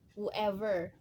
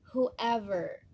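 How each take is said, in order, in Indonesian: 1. Diawali dengan bunyi 'woo'. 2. Diawali dengan bunyi 'hoo'. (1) "Aku juga dulu mengucapkannya wu" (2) "Jadi kita bacanya who"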